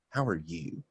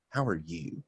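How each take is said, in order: First: It is asked with marked, probing inflection. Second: It is asked with marked, probing inflection.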